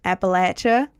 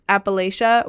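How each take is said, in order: First: Appalachia said "app-uh-LATCH-uh"; short-A Appalachia. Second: Appalachia said "app-uh-LAY-sha"; long-A Appalachia. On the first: Streamer offers the local way to say Appalachia, as "app-uh-LATCH-uh". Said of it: "Appalachia or". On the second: Streamer offers one way to say Appalachia, as "app-uh-LAY-sha". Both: Shown as a demonstration.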